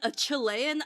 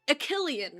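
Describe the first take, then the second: First: The middle consonant is a ch sound. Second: The middle consonant is a k sound. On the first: It sounds like someone from the country Chile. The speaker calls it wrong. "when I pronounce it like a Chilean, I feel like I'm saying that they're from the country Chile" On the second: It refers to Achilles. The speaker calls it right. "Because it's Achilles"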